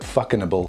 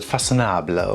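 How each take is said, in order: First: The name is said with an Australian pronunciation. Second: The name is said with a French pronunciation. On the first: "here in Australia we call it fuckinable" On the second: "I'm pretty sure you pronounce it façonnable"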